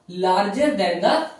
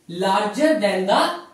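No difference in how they are said.

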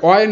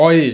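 First: "অয়" as one closed syllable, like "oy"; wrong ending. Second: "অয়ে" with an audible final "e"; correct ending. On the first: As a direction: say "অয়" without a final "e". ("অয়", শেষে এ ছাড়া এক টানে) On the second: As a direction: say "অয়ে" as "aw-ye", not "oy". ("অয়ে", শেষে এ স্পষ্ট করে) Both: Shown as a demonstration. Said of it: "মানে অয় না".

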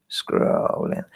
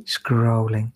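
First: Whispered. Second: Said in the usual way. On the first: Shown as a demonstration. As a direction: whisper "Scrolling" softly, no voice.

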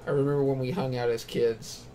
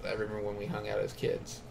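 First: Said in the usual way. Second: Soft and fast, reading it off; quick quiet read. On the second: Retold or imitated. Player picking the option, fast and soft. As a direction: rattle it off under the breath. Reads the chosen option again.

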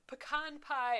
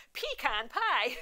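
First: "Pecan pie" as puh-KAHN pie, higher; in-laws' pronunciation. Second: "Pecan pie" slowly as PEE-kahn pie, higher; own pronunciation. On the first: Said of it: "they're like". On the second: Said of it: "and I'm like". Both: Retold or imitated.

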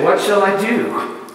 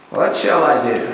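First: Prodigal son's question. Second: Low, hushed wondering of a rich man; rich man's question. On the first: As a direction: ask it like a stranded, hungry kid. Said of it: "The kid in the pig pen asked it". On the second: Rich man pondering his wealth, low and hushed. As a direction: ask it as the troubled rich man, lower. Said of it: "The rich man asked it". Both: Retold or imitated.

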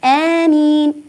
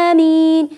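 First: آمين with a short two-count vowel, slowly; two-count amin. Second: آمين with the first vowel held too long; overlong amin. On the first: Teacher models the correct short آمين for the children. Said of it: "حركتان فقط". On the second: Teacher shows the wrong, overlong آمين that some people say. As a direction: stretch آمين too far. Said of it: "البعض يقول". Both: Shown as a demonstration.

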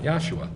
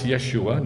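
First: "Yahshua" with an open ah first; wrong Yah vowel. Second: "Yeshua" with a short eh first; correct Yeh vowel. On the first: Teacher dismissing the wrong name, soft "Yahshua" with open ah. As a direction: say "Yahshua" as YAH-shoo-ah, softly. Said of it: "not Yahshua". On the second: Teacher explaining the right name, "Yeshua" with short eh. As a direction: say "Yeshua" as YESH-oo-ah. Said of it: "why it's Yeshua, not Yahshua". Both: Shown as a demonstration.

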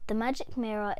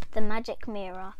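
First: Said in the usual way. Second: Announced title. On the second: Shown as a demonstration. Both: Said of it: "our very first book on Destiny's Reading Corner is".

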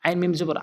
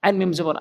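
The two takes are said the same way.

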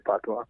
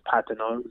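First: Patois said as "PAH-twah"; local pronunciation. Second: Patois said loosely as "PAT-uh-noh"; standard pronunciation. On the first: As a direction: say patois with two open "ah" vowels. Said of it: "but we say patois". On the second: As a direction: say patois with a flat first "a", as in "pat". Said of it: "it's pronounced, I guess". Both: Shown as a demonstration.

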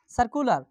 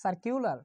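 First: সার্কুলার as "sar-ku-lar", without a y glide; "ir" as aar. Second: সার্কুলার as "sar-kiu-lar", with a y glide; "ir" as aar. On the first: Teacher repeating the answer for students, সার্কুলার said "sar-ku-lar". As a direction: say সার্কুলার with a plain "ku" in the middle. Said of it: "আয়ের উচ্চারণটা হবে". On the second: Teacher answering the spelling question, সার্কুলার said "sar-kiu-lar". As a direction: say সার্কুলার with "kiu" in the middle, softer. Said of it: "উচ্চারণটা হবে". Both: Shown as a demonstration.

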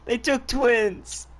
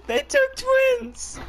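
First: Said in the usual way. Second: Hammed-up wail, much higher and slow; over-the-top pretend grief; mock wail. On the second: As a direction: stretch it out like fake mourning. Mock lament over teammate.

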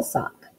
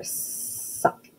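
First: Said in the usual way. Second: Sock with a long hissed "sss" to start; stretched first sound. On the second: Shown as a demonstration. Teacher asking what kids hear, long S in Sock. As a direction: hold the S of Sock, softly. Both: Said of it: "What do you hear?".

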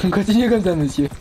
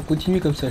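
First: Louder, higher mock congratulation; loud mock praise. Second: Said in the usual way. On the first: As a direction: repeat it like a loud announcer. Mock repeat of game message.

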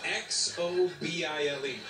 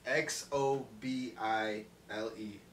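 First: Slow spelling. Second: Each letter read out slowly, one by one; slow spelled-out letters. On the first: Spelling out the name letter by letter. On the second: Reading the dealer's name tag out slowly, letter by letter. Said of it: "How do you say that?". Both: Retold or imitated.

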